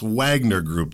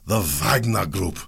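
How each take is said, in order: First: It is said with an American accent. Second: It is said with a Russian accent.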